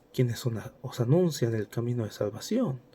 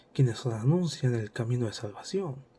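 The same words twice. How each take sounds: No difference in how they are said.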